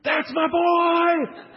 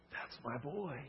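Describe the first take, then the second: First: High, drawn-out proud shout; real loud scream. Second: Very soft, tender delivery; hushed declaration. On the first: Retold or imitated. Excited dad cheering son's basket, screamed real loud. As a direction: yell it slowly at full volume from the stands. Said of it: "He's real loud". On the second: Acted. God claiming a child, spoken very softly. God's shout softly voiced over congregation.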